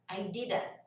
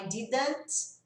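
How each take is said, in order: First: "didn't" ending on N, T swallowed; silent final T. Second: "didn't" with the final T released; full final T. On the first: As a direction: let "didn't" stop at "didn". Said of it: "esse T vai sumir". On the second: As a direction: sound out the T at the end of "didn't". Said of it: "Ao invés de eu falar". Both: Shown as a demonstration.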